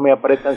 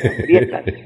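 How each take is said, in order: First: The second syllable is a plain 'pre' sound. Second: The second syllable has the diphthong 'prie'. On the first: The speaker calls it wrong. "los zapatos no me apretan" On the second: The speaker calls it right. "sino me aprietan"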